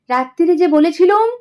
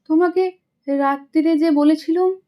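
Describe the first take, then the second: First: It is said in a mocking, mimicking tone. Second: It is said in a plain, sincere tone.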